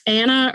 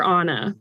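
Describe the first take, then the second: First: Anna with the flat A of "apple"; first-vowel contrast. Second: Anna with the open "ah" of "father"; first-vowel contrast. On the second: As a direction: say Anna as AH-nuh. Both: Shown as a demonstration. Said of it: "like, one of the two".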